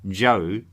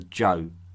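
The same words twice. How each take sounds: First: The vowel is drawn out and long. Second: The vowel is clipped and short. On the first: It names the Shang king. "with a double vowel sound" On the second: It names the opposing people. "I will pronounce with a short vowel"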